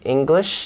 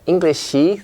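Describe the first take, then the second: First: The word ends cleanly on the sh sound. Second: An extra vowel follows the final sh sound. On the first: The speaker calls it right. "We say English" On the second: The speaker calls it wrong. "not Englishy"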